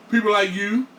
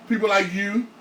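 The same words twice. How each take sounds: The two takes are said the same way.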